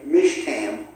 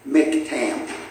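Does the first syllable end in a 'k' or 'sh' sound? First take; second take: sh; k. First: The first syllable ends with an 'sh' sound. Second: The first syllable ends with a 'k' sound. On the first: The speaker calls it wrong. "I thought it was Mish, okay? Mishtam, but it's not" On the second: The speaker calls it right. "It's Mik, okay? Miktam"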